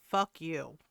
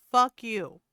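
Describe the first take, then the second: First: Said in the usual way. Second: Louder real outburst. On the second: Real, not acted. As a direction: spit it back at him. Answering the hiking guy video.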